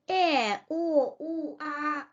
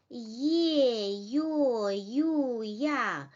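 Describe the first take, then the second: First: "e, o, u, a" as pure vowels with no y in front; vowels without y. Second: "ye, yo, yu, ya", each opening on a y sound; drawn-out "ye, yo, yu, ya" with y onsets; letters with y glide. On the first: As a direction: say bare "e, o, u, a", dropping the y glide. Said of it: "without the sound y". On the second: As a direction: sound out each vowel after a clear y. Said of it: "are pronounced as". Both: Shown as a demonstration.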